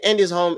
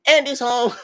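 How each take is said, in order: First: Said in the usual way. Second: High squealed joke cry; mock scream. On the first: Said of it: "when Andy comes in and they say". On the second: Serena screaming as a joke to friends. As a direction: shriek it like the toys' warning. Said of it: "Serena screamed".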